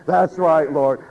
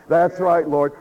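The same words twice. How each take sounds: The two takes are said the same way.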